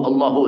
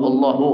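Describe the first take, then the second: The two takes are said the same way.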